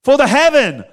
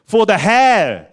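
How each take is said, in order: First: "heaven" raised in pitch and punched loud; stress on "heaven". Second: "hell" punched as the final word; stress on "hell". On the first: Preacher offers heaven as the answer, stress on "heaven". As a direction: lift and push "heaven" in "For the heaven". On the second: Preacher sets hell against heaven, stress on "hell". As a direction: land firmly on "hell" in "For the hell". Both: Shown as a demonstration.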